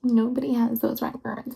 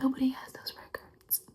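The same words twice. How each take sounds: First: Nobody said aloud and firmly; firm voiced insistence. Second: Nobody whispered softly, in disbelief; stunned whisper. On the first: Repeats aloud with conviction. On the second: Acted. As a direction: breathe it out, Nobody hushed. Disbelief about secret records.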